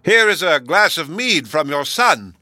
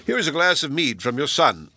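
First: Slow, loud and emphatic, as to the deaf; shouting. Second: Said in the usual way. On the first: Acted. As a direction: bellow each word slowly. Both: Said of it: "cried the host as loud as he could".

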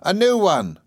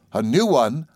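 First: High nurse announcing news, falling away; very high, brightly insistent nursemaid; Peggotty. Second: Put-on child's bewildered echo question; higher, questioning boy; puzzled repeat. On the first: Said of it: "said Peggotty". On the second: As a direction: echo it in mild disbelief. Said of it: "I repeated". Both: A narrator's reading.

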